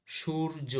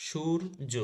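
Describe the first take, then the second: No difference in how they are said.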